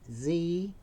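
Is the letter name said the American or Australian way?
American. The letter is said the American way, as zee.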